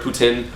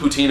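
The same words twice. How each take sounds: First: It is said with the local Montreal pronunciation. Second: It is said with the speaker's everyday pronunciation.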